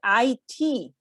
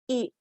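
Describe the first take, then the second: First: It is said as two separate letters. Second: It is said as a single word. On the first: The speaker calls it right. "pronounced letter by letter" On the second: The speaker calls it wrong. "is not pronounced it"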